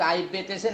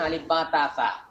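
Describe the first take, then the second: First: The letter names end in an 'e' vowel. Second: The letter names end in an 'a' vowel. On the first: This is the older way people learned it. The speaker calls it wrong. "তারা যা ভুল করেছে" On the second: This is the way younger people learn it. The speaker calls it right. "সঠিকটা"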